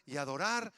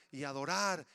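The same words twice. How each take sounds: The two takes are said the same way.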